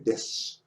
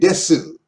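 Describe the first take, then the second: First: The final u is dropped or whispered. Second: The final u is fully voiced. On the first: The speaker calls it right. "Say des" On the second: The speaker calls it wrong. "We don't say desu"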